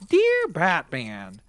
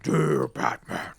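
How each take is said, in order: First: It is said in a very high-pitched voice. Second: It is said in a lower, deeper voice. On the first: The speaker calls it wrong. "if the Kraken had this like very high pitched voice" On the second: The speaker calls it right. "It would be more like"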